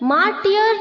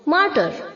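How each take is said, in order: First: A 'y' glide is sounded after the 't'. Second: No 'y' glide is sounded after the 't'. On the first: The speaker calls it wrong. "मार्टियर नहीं बोलना है इसे" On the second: The speaker calls it right. "वाई silent है"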